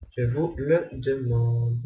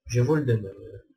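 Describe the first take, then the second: First: Slow, drawn-out rhetorical flourish; mock-theatrical question. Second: Said in the usual way. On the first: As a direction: stretch it out for mock drama. (question rhétorique lente, faussement théâtrale)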